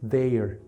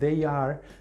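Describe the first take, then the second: First: The two words merge into one contracted syllable. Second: Both words are said separately in full. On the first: "la pronunciación es" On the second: "En vez de decir"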